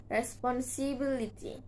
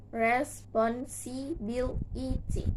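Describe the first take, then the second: First: Said in the usual way. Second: "responsibility" slowly split into re, spon, si, bi, li, ty; six slow, even beats on "responsibility"; syllable by syllable. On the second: Shown as a demonstration. Teacher showing six syllables, "responsibility" slowly broken apart. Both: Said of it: "six syllables".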